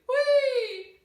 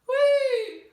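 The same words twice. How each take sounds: First: The call sounds broad and dark. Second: The same.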